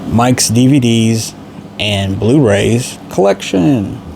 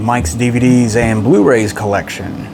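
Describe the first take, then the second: First: It is said at a slower, deliberate pace. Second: It is said at a quicker, normal pace.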